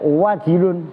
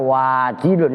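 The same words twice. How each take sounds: First: The vowels in the word are kept short. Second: A vowel in the word is drawn out long. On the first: The speaker calls it right. "kan pendek" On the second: The speaker calls it wrong. "Kan ada yang baca wajilun, ya salah lah"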